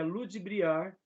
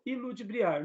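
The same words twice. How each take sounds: First: The correct word ludibriar, starting on L; ludibriar without initial i. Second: The mistaken form iludibriar, i added in front. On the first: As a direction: begin ludibriar straight on lu. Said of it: "que é ludibriar". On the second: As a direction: put an extra i before ludibriar. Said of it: "e não iludibriar". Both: Shown as a demonstration.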